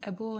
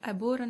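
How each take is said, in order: First: It is said in a British accent. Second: It is said in an American accent. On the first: "Britain ಆ್ಯಸೆಂಟಲ್ಲಿ" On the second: "American ಇಂಗ್ಲೀಷಲ್ಲಿ"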